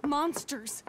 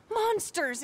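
First: Said in the usual way. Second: Bitter outburst. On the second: Acted. Woman telling a stranger about her family's enemies, bitter outburst. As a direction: spit the word out in revulsion. Repeated word, louder and higher.

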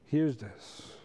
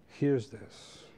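No difference in how they are said.

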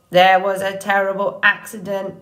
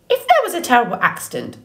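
First: Level, monotone robot voice, oddly cheerful. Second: Fast, higher-pitched suspicious bird voice; squawking old goose. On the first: Robot explaining to the goose, cheerful monotone. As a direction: report bad news pleasantly on one note. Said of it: "why does your voice sound so cheerful". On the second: Goose challenging the robot's story, quick squawk. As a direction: rattle it off like a scolding goose. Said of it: "squawking at the robot". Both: A narrator's reading.

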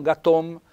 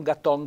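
First: "gatom" with a closed O; closed accent. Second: "gaton" as the rejected form, O not closed; "gaton" without the closed accent; wrong open vowel. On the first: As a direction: correct it to GATOM, final O tight. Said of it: "accento chiuso". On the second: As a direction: show how not to say GATON. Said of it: "non gaton". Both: Shown as a demonstration.

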